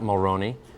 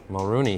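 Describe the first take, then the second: First: The middle syllable has an 'oh' vowel. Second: The middle syllable has an 'oo' vowel. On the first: Some people in Ireland say it this way. The speaker calls it wrong. "not Mulroney" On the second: This is how the man himself says his name. The speaker calls it right. "Mulrooney, he says"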